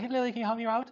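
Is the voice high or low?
high. It is said in a high voice.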